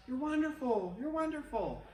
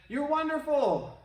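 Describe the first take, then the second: First: Higher, fading softer; fading echo. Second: Shouted call. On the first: The valley echoes the praise back, fading. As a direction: echo the call back and let it die. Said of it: "And they heard back". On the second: The kid shouts praise into the valley. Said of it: "They shouted". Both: Retold or imitated.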